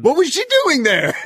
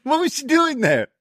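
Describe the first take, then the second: First: Laughing. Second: Mock disbelief. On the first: Laughing disbelief at wrestling segment. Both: Real, not acted.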